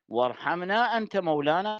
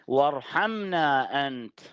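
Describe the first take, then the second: First: The voice runs on from anta into mawlana. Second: The voice stops after the word anta. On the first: God is our protector. The speaker calls it right. "فالأصح أن أن يقرأ القارئ هكذا" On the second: Someone other than God is the one who shows mercy. The speaker calls it wrong. "البعض يتوقف هكذا"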